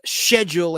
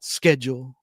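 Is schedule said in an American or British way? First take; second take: British; American. First: Schedule is said the British way. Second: Schedule is said the American way. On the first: "it's schedule in England" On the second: "not schedule"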